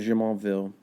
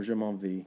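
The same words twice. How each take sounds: First: "Jumonville" the English way, ending in "-vill"; English pronunciation. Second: "Jumonville" the French way, ending in "-vee"; French pronunciation. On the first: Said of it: "English pronunciation". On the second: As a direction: say "Jumonville" Frenchly, dropping the final L sound. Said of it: "French pronunciation". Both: Shown as a demonstration.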